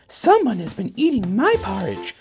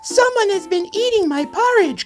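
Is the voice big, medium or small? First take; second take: medium; small. First: It is said in a middle-sized voice. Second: It is said in a wee small voice.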